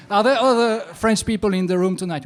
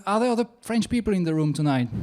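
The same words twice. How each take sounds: First: Called out loudly to the audience, falling at the end; loud question to the crowd. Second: Rattled off fast to get past the bad line; rushed retake. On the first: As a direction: project it to the back of the hall. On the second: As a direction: hurry through it, a little embarrassed. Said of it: "Who wrote that horrible script". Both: Shown as a demonstration.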